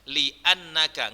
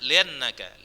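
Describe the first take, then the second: First: A glottal stop separates li from annaka. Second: Li runs into annaka without a glottal stop. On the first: The speaker calls it right. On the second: The speaker calls it wrong. "nggak boleh dibaca liannaka"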